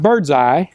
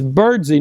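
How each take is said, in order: First: The name ends with a 'sigh' sound. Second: The name ends with a 'see' sound. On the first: The speaker calls it wrong. "not Birdseye" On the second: The speaker calls it right. "his name is Birdsey"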